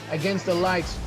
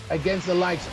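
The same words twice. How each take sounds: The two takes are said the same way.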